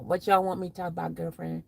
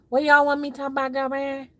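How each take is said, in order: First: Said in the usual way. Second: Higher, louder, quick sassy delivery; sassy diva read; sassy girlfriend voice. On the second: Pretend. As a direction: camp it up for the chat. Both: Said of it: "repeats same line marked".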